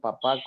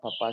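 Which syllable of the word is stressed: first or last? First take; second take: last; first. First: The stress is on the last syllable. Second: The stress is on the first syllable. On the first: "con tilde" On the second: "sin tilde"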